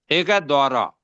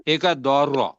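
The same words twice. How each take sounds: First: दौरा with one smooth joined vowel; first sound, dauraa. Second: दो रॉ split, heavy rolled रॉ; second sound, do ro. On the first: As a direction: say दौरा as a single word. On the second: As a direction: separate दो and a thick रॉ. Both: Shown as a demonstration. Teacher contrasting two sounds for students. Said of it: "अब आप सुने ना".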